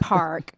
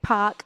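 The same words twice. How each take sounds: First: The R is pronounced, American style. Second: The R is dropped, in her native accent.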